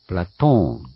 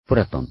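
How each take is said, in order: First: The vowel after the t is long. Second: The vowel after the t is short. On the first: The speaker calls it right. "プラトーンなんですね" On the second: The speaker calls it wrong. "プラトンではなく"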